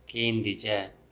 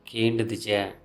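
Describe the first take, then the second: First: The word is shortened, dropping the middle syllable. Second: The word is said in full with every syllable. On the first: This is the everyday spoken form. "In spoken Tulu, it's pronounced as Kendija" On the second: This is the full form from the rule. "Kendu plus du plus ija"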